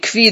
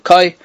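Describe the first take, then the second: First: The word is said without an 'o' vowel. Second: The word is said with an 'o' vowel. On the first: "there's different pronunciations" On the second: "the correct pronunciation is koi, with a chaylam"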